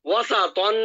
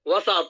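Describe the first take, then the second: First: The word ends with an an sound. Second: The word ends abruptly on the t sound. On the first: The reading continues without stopping. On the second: The reader stops on this word.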